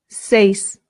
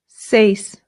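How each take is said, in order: No difference in how they are said.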